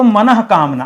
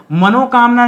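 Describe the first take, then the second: First: मनः said with a breathy visarga before कामना; मनः with audible ह, then कामना; correct form. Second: मनोकामना said as one word with o; मनोकामना as the rejected form; wrong form. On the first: Teacher giving students the pure form. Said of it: "अगर शुद्ध देखेंगे". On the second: Teacher naming the wrong form for students, plain. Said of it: "मनोकामना नहीं दोस्तों". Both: Shown as a demonstration.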